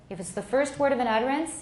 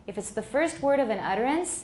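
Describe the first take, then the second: Both takes have the same delivery.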